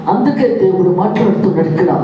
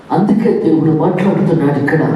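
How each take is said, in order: Both takes have the same delivery.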